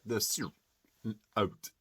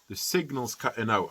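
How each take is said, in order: First: The sentence is chopped, with words cut out. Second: The sentence is said smoothly and whole.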